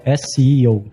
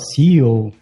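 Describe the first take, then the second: First: The first letter is said like 'es'. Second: The first letter is said like 'see'. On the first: The speaker calls it right. "a pronúncia das letras separadamente em inglês, né? Que é o S, e o E e o O" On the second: The speaker calls it wrong. "que fala errado, né? Fala C E O"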